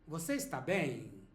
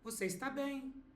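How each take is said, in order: First: The final word is drawn out, like a question. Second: The final word is short, like a statement. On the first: It asks whether the person is okay. "notice how the bem goes a bit longer" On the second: It states that the person is okay. "as a statement"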